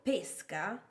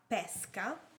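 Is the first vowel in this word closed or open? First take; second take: closed; open. First: The first vowel is a closed e. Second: The first vowel is an open e. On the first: It means the sport of fishing. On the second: It means the fruit, a peach.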